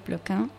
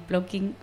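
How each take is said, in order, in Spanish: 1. El apellido se pronuncia a la manera francesa. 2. El apellido se pronuncia a la manera española adaptada. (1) "en realidad se dice Plokin, es un apellido francés" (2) "creo que se queda mejor así"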